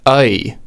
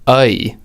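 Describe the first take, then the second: Both takes have the same delivery.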